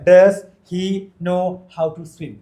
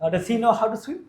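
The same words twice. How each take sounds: First: The sentence is spoken slowly. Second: The sentence is spoken faster. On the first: "ആദ്യം നമ്മൾ പതുക്കെ പറയാം" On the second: "പതുക്കെ പതുക്കെ സ്പീഡ് കൊണ്ടുവരാം"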